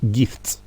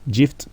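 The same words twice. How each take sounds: First: The g is said as a hard g sound. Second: The g is said as a soft j sound. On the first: The speaker calls it right. "mais on dit gift" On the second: The speaker calls it wrong. "On ne dit pas non plus gift"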